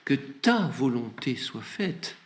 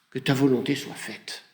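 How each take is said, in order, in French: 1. Il est dit sur un ton humble et suppliant. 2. Il est dit sur un ton ferme et affirmatif. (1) "de plus humble, de plus suppliant" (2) "ça c'est hein, euh, la concrétisation de, de, de, ton, de ta pensée, Seigneur"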